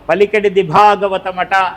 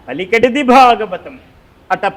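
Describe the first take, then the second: First: Ata is joined to the preceding word, without a pause. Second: A pause comes before ata, which starts the next phrase. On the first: It is only hearsay that the work is the Bhagavatam. The speaker calls it wrong. "ఆ అట అక్కడ కాదురా" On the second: The work is surely the Bhagavatam, and the Lord made it spoken. The speaker calls it right. "ఇటు అది అట"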